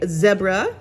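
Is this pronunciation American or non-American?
non-American. It is said the non-American way.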